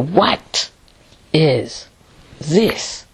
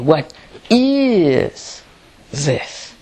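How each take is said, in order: First: The stress falls on the word what. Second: The stress falls on the word is. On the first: "should you put the emphasis and say" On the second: "Or is more important?"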